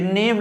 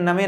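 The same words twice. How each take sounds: First: "नेम" as one syllable with a long e; name, English reading. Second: "नमे" as two syllables, na-me; Hindi-style misreading. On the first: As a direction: say "नेम" with the final e silent. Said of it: "ये नेम लिखा हुआ है". ("नेम", एक अक्षर में सही उच्चारण) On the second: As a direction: sound the final e in "नमे". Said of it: "लेकिन नमे नहीं है". ("नमे", गलत उच्चारण, दो अक्षरों में) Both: Shown as a demonstration.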